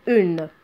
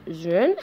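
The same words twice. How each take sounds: First: Said in the usual way. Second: UNE said with a linking Z in front, "zune"; une with liaison. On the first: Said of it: "s'il n'y a pas la liaison". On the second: Shown as a demonstration. Teacher showing une when there is liaison, linked Z sound. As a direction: start UNE on a buzzed Z. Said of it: "s'il y a la liaison, on dit".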